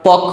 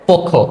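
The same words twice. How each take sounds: First: The first vowel is an open 'a' sound. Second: The first vowel is an 'o' sound. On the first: The speaker calls it wrong. "এগুলো আমরা ভুল বলি" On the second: The speaker calls it right. "সঠিক উচ্চারণ কি হবে পক্ষ"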